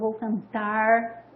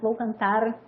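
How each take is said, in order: First: The final R is curled back, a retroflex sound. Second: The final R is a vibrating trill in the throat. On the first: "o R retroflexo" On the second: "um R um pouco mais vibrante, né? Que dá esse, esse, esse sonzinho na garganta, uma tremidinha na garganta"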